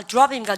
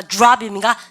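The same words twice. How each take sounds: First: "드롭입니까" starting deu-rap; Koreanized DR. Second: "드롭입니까" as joo-rap, hit louder; English DR sound. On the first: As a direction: keep a plain d sound in "드롭입니까". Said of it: "뚝 떨어진 거 발음입니까". ("드롭입니까"의 '드'를 글자대로) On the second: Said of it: "디알은 뭐야". ("드롭입니까"를 '주랍'으로 힘주어) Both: Shown as a demonstration.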